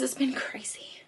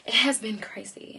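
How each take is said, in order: First: Hushed whisper. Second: Said in the usual way. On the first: Real, not acted. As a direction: breathe it out as a secret. Repeated aside, then said plainly.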